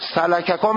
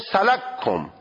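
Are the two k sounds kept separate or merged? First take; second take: separate; merged. First: Both k sounds are pronounced separately with a vowel. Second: The first k is merged into the second. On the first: "اول میای اون کاف اول را اسکان میدی، ادغامش میکنی تو کاف دوم" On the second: "ادغامش میکنی تو کاف دوم"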